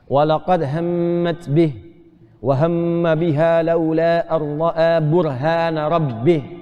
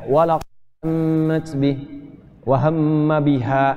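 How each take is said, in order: First: It runs on without stopping until the end. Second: It stops right after the word biha. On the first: The verse is read as one unit that ends at the final word. The speaker calls it right. "Makanya wakafnya di akhir" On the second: The verse is broken off before its end. The speaker calls it wrong. "kalau bisa ini jangan begini ... agak kurang tepat tuh"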